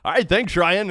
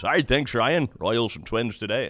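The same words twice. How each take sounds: First: High, louder, hammed-up imitation of the announcer; mock Denny Matthews. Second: Lightly voiced veteran announcer's opener; Denny Matthews voice. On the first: Host jokingly imitating Denny's handoff to Ryan, high and hammed-up. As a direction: toss back to Ryan the announcer's way. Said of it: "I so badly wanted to say". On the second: Host lightly imitating Denny opening the Royals broadcast. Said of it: "the voice of the Royals, Denny Matthews".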